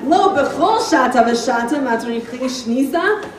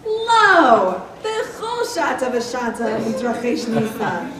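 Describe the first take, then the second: First: It runs on without a pause after lo. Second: There is a break after lo.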